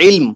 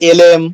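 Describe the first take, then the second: First: It starts with an 'i' vowel, one syllable. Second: It starts with an 'e' vowel, two syllables. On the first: The speaker calls it right. "উচ্চারণটা হবে হলো প্রপারলি ইলম" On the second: The speaker calls it wrong. "দেখবেন কেউ কেউ বলে হলো এলেম"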